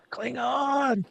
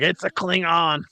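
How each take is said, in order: First: A breathy little echo, much higher; high, soft mock echo. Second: Said in the usual way. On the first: Mocking the crew, a high hushed Klingon.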